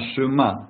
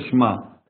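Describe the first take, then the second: First: A very short vowel sits between sh and m. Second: The sh goes straight into the m. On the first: The speaker calls it right. "надо немножко протянуть" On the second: The speaker calls it wrong. "не просто Шма"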